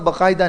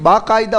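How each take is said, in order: First: The first vowel is short. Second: The first vowel is long. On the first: The speaker calls it wrong. "बकायदा नहीं होता है" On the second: The speaker calls it right. "बाकायदा होता"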